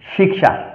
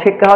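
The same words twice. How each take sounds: First: It is said with Sanskrit pronunciation. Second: It is said with Bengali pronunciation. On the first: The speaker calls it right. "এটাকে উচ্চারণ করব" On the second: The speaker calls it wrong. "হচ্ছে আমাদের বাংলা উচ্চারণ"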